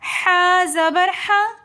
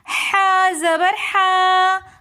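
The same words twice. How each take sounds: First: The final vowel is kept short. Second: The final vowel is drawn out long. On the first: The speaker calls it right. "बल्कि हमने पढ़ना है" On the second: The speaker calls it wrong. "तो हमने ज़बर को खींच दिया"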